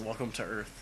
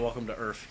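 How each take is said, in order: First: The word Earth is pronounced in the standard way. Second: The word Earth is pronounced in an altered way. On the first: This is how the line is actually said. The speaker calls it right. "He pronounces it correctly" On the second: This is the popular misquoted version. The speaker calls it wrong. "He doesn't say"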